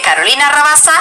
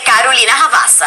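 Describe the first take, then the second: First: The name is said with a Spanish accent. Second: The name is said with a Brazilian accent. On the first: The role is a Spanish character. "if she's Spanish" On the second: The role is a Brazilian character. "if she's Brazilian"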